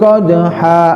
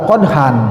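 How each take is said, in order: First: The word ends in a long open vowel. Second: The word ends with an n sound. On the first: The speaker calls it right. "mad iwad itu" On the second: The speaker calls it wrong. "bukan dibaca qadhan"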